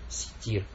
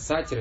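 First: The vowels are i then i. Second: The vowels are a then i. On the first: The speaker calls it right. "правильно? Ситир" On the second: The speaker calls it wrong. "Некоторые говорят, сатир, это нету у Аллаха"

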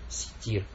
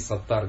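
First: The vowels are i then i. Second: The vowels are a then a. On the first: The speaker calls it right. "правильно? Ситир" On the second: The speaker calls it wrong. "Или сатар, говорят"

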